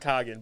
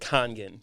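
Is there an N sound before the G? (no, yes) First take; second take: no; yes. First: The name is said without an N sound. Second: The name is said with an N sound. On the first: The speaker calls it wrong. "it's always Coggin" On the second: The speaker calls it right. "it's supposed to be like Congan"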